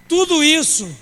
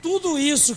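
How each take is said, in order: First: "Tudo isso" with "tudo" belted out high and loud; loud preached emphasis. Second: Said in the usual way. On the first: Shown as a demonstration. Preacher to congregation, calling out "Tudo isso" loudly. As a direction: punch "Tudo" hard, falling off. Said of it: "repeated opening, preached loud". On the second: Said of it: "repeated opening phrase".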